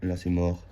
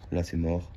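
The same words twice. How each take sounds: The two takes are said the same way.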